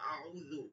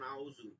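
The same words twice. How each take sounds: First: The middle consonant is a soft th sound. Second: The middle consonant is a z sound. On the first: The speaker calls it right. "এটা তো নরম হওয়ার কথা ছিল" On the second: The speaker calls it wrong. "এটা তো জিমের উচ্চারণ বা জায়ের উচ্চারণ"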